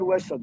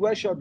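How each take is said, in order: First: The middle consonant is an s sound. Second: The middle consonant is an sh sound. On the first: This is how the Dersim speakers say it. "onlar Vesa diyor" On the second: This is how the Bingöl speakers say it. "biz Veşa diyoruz"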